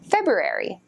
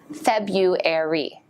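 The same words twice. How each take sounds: First: The first R is clearly pronounced. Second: The first R is left out. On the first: "some say that you should pronounce the R like this" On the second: "Most native speakers say February"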